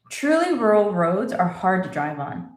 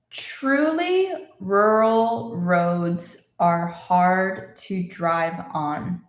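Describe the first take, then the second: First: It is spoken at normal conversational speed. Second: It is spoken very slowly and carefully. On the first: "And normal speed" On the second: "let's say it again slowly"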